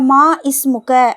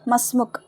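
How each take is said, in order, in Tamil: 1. இரண்டு சொற்களும் முழு உயிரெழுத்துடன் தனித்தனியாகச் சொல்லப்படுகின்றன. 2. இரண்டு சொற்களும் ஒன்றாக இணைந்து சொல்லப்படுகின்றன. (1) "மா இஸ்முக்க அப்படின்னு கேட்க மாட்டாங்க" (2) "அவ்வளோதான்"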